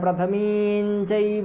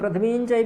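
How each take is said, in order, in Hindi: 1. पहले शब्द में तीन पूरे अक्षर हैं। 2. पहले शब्द को छोटा करके दो अक्षर कर दिया जाता है।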